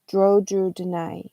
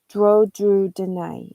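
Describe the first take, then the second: First: Word endings are dropped and sounds are substituted. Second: The same.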